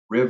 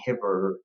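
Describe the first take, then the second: First: The word begins with an R sound. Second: The word begins with an H sound. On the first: The speaker calls it right. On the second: The speaker calls it wrong.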